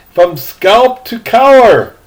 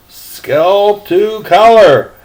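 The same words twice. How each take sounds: First: From scalp to collar stretched out, collar leaned on; slow emphatic. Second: Scalp to collar drawn out even slower, collar stressed; slower repeat. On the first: Reader savouring the captain's bald head, slow and stressed. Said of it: "reader repeats for emphasis". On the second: Reader relishing the repeat, slower still. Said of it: "repeats it slower". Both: Shown as a demonstration.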